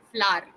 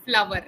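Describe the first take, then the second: First: "flower" as one syllable, "flaar"; correct pronunciation. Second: "Flower" in two syllables, FLA-ver; usual pronunciation. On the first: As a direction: say "flower" without the w, falling. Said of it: "the correct pronunciation is". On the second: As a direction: say "Flower" with a clear v-like w. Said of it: "This is how we usually pronounce". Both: Shown as a demonstration.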